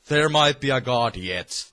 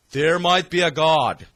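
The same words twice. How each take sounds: First: Said in the usual way. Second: Louder exclamation. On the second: Real, not acted.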